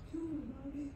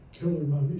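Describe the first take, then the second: First: Put-on high, hushed child's plea; eerie little voice, high and very soft; Jason's voice. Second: Said in the usual way. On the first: Jason urging his mother, high hushed voice. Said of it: "you hear Jason's voice going". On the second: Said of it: "and then she goes".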